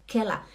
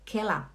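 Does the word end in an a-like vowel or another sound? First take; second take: a-like vowel; a-like vowel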